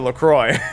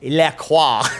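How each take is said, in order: First: The name is said with plain English pronunciation. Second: The name is said with French-style pronunciation. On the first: The speaker calls it right. "But it's actually LaCroix. ... about as French as fries" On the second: The speaker calls it wrong. "that's French for the creek. So it's probably"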